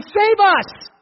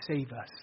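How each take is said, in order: First: High, loud cry of "Save us!"; scream. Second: Low, soft and matter-of-fact; just tell them what it means, quietly; plain quiet explanation. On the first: Acted. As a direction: scream it for the coming king. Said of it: "We're gonna scream". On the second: Shown as a demonstration. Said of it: "It means".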